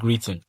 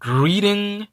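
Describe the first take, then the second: First: The middle consonant sounds like a clear T. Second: The middle consonant sounds like a soft D. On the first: "au lieu de dire greeting" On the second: "je dois le prononcer comme D dans l'anglais américain"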